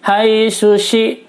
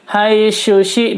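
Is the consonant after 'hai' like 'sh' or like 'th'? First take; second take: sh; sh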